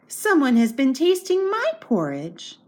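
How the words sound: It is spoken in a medium-sized voice. "said in her middle-sized voice"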